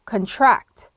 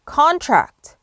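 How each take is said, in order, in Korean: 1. 강세는 두 번째 음절에 있어요. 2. 강세는 첫 번째 음절에 있어요.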